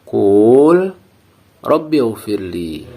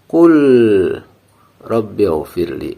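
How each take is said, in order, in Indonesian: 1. Vokal pada qul dipanjangkan. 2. Ada jeda antara qul dan rabbi. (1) "Dengan memanjangkan bacaan antara huruf qaf dan lam itu" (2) "dengan ada jeda antara huruf lam dan ra itu"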